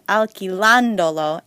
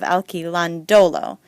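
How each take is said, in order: First: The stress falls on the syllable 'lan'. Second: The stress falls on a syllable other than 'lan'. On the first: The speaker calls it right. "that's how you keep that sound" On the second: The speaker calls it wrong. "because that sounds stupid"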